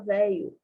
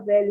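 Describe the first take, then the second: First: The middle sound is an EE-like vowel. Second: The middle sound is a palatal LH consonant. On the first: "a gente fala velho" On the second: "A gente não fala velho"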